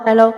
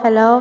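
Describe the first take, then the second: No difference in how they are said.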